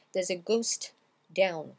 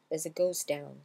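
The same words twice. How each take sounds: First: "ghost down" with the T released before the D; louder, split "ghost / down", both consonants sounded; separate T and D. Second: "ghost down" linked as "ghos-down", no T; T merged into D. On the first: Teacher shows what not to do, "ghost down" with T and D separated. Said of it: "on va pas faire". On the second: Teacher models the linked way, "ghost down" as "ghos-down". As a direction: glide from the S of "ghost" straight into "down". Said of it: "on va pas prononcer le T". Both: Shown as a demonstration.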